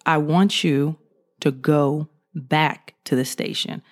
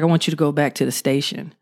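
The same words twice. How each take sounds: First: Slower deep sergeant order. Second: Lower, a hint of a G I Joe type sergeant; deep sergeant voice. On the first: Retold or imitated. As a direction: lower and slow, a firmer sergeant repeating the order. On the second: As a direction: lightly drop into a deep commanding sergeant. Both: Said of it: "G I Joe type dude with a real deep voice".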